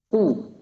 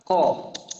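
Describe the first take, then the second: First: The lips round, giving a u-like vowel. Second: The mouth opens, giving an open a-like vowel. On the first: "Ku, domah jadinya" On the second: "Dibuka, kof. Itu fathah jadinya"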